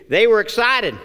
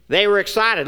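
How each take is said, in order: First: Louder, punched were; emphatic. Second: Said in the usual way. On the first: Shown as a demonstration. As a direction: hit the word were.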